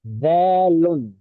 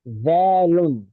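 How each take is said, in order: Both takes have the same delivery.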